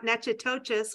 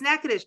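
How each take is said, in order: First: The name is said as it is spelled. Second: The name is said the local way. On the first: The speaker calls it wrong. "not Natchitoches, which I would have said for years" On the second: The speaker calls it right. "it's Natchitoches"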